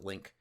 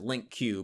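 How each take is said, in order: First: The name ends right after the 'k' sound. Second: The name ends with an extra 'cue' sound. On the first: This is how the creator says the name. "he just calls it Link" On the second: This is how some people say the name. "some people pronounce it Link Q"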